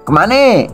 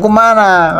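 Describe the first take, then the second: First: The word ends with an e vowel. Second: The word ends with an a vowel. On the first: "kalau di Bangka kemana eh" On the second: "lebih stabil dengan ujungnya a"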